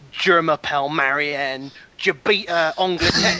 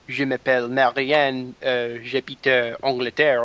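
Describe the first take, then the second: First: It is said with a British accent. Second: It is said with a French accent.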